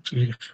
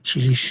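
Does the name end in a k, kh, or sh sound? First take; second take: kh; sh. First: The name ends with a kh sound. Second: The name ends with an sh sound. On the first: This is how Germans say it. The speaker calls it right. "خود آلمانیا تیلیخ میگن" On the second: This is how people here say it. The speaker calls it wrong. "این که در بین ما تیلیش میگن این غلطه"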